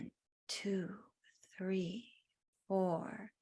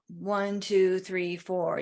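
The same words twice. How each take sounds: First: It is counted slowly and soothingly, with rhythm. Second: It is counted briskly, like getting something done.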